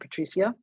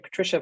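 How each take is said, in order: First: The name is said with a Spanish pronunciation. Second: The name is said with an English pronunciation. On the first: "but you pronounce it Patricia" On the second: "Every time I say Patricia"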